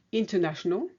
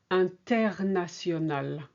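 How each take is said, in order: First: International the English way, syllables swallowed; English pronunciation. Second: International with every syllable and a French R; French pronunciation. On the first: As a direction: imitate an English speaker saying international. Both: Shown as a demonstration. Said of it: "whereas we say".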